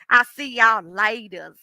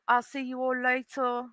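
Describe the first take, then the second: First: It is said in a Southern American accent. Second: It is said in a put-on British accent.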